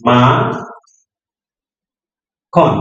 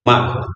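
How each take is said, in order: First: মা and খন said apart with a long pause between; syllable by syllable. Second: Said in the usual way. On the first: Shown as a demonstration. Teacher showing the child how to read aloud syllable by syllable. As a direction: sound out each syllable slowly. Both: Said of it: "জোরে জোরে শব্দটা পড়ছে কিনা".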